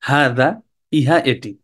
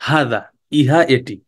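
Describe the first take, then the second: The two takes are said the same way.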